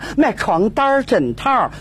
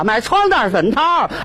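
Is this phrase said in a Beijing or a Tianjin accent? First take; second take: Beijing; Tianjin. First: It is spoken in a Beijing accent. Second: It is spoken in a Tianjin accent. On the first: "两位北京姑娘走到一起说话" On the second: "这点事儿要是到了咱们天津，那一说话就变味了"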